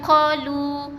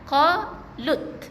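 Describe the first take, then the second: First: The word ends in a long vowel without t. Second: The word ends with a clear t sound. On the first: The speaker calls it wrong. "Yang ni bukan qalu. Jangan baca dengan mat" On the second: The speaker calls it right. "ada huruf ta yang kita kena masukkan"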